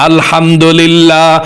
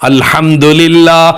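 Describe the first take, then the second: No difference in how they are said.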